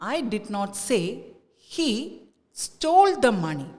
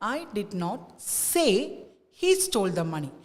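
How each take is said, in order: First: The stress falls on the word stole. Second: The stress falls on the word say. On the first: "let us give the stress to stole" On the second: "സേ എന്നുള്ള വേർഡിലേക്ക് നമ്മൾ stress കൊടുക്കുമ്പോൾ"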